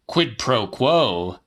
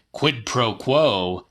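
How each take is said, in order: Both takes have the same delivery.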